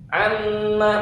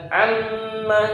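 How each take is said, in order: Both takes have the same delivery.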